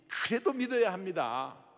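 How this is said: It sounds pleading and full of compassion. The speaker calls it right. "안타까운 하나님의 마음을 가지고 표현하는 것이"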